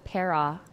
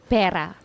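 First: The word is said without a Tagalog accent. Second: The word is said with a Tagalog accent. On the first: The speaker calls it wrong. "not para" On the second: The speaker calls it right. "you have to say it in that accent. Pera"

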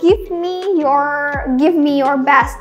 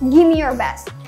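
First: Give and me are said as two full words. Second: Give and me are run together as gimme. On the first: "mau bilang kayak give me your best" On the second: "bisa singkat jadi"

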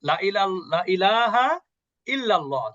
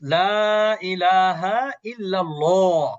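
First: The vowel of the first word is cut short. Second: The vowel of the first word is drawn out. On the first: There certainly are gods besides God. The speaker calls it wrong. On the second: There is no god except God. The speaker calls it right.

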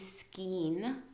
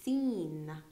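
First: A K sound follows the S. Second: No K sound follows the S. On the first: The speaker calls it wrong. "So we don't say skein" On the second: The speaker calls it right. "we say seen"

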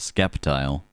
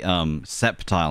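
First: The word is said with a k sound. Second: The word is said without a k sound. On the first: "Because people skip the C" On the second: "Some people say septile"

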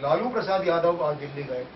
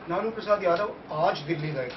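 First: The stress falls on the name Lalu. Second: The stress falls on the word aaj. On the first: Lalu went, not some other politician. "यानी अटल बिहारी वाजपेयी नहीं गए, सोनिया नहीं गई" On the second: He went today, not on another day. "कल नहीं गए थे, कल नहीं जाएंगे"

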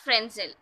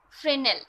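First: The S sound is pronounced in the word. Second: The S sound is silent in the word. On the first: The speaker calls it wrong. "It is actually not Fresnel" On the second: The speaker calls it right. "The S is silent"

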